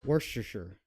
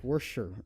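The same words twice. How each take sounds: First: Worcestershire said as WOOS-ter-sher, three syllables. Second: Worcestershire squashed to WOOSH-sher, two syllables; imitating two-syllable Worcestershire. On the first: Shown as a demonstration. Cook explaining the proper way, three-syllable Worcestershire. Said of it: "three syllables is su-, sufficient". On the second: Cook mocking Proctor's version, two-syllable Worcestershire. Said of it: "But he got it down to".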